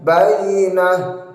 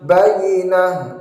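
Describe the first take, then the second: Both takes have the same delivery.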